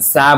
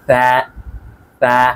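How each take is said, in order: First: It starts with a hissing s sound. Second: It starts with a th sound, tongue between teeth. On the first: The speaker calls it wrong. "সা এর উচ্চারণ কিন্তু এস এর মতো করলে হবে না" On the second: The speaker calls it right. "বলতে হবে সা সা এভাবে"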